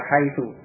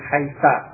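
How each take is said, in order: First: The word ends in the vowel u. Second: The word ends in the vowel a. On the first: This is the standard form of the word. "dibaca haitu tetap dengan dhommah" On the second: Some Arabs say it this way as a dialect form. "menjadikan dia tetap dengan fathah"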